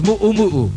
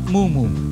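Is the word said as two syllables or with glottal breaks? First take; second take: glottal breaks; two syllables. First: It is said with glottal breaks between vowels. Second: It is said as two smooth syllables. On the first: The speaker calls it right. "it's mu'umu'u" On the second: The speaker calls it wrong. "It's not mumu"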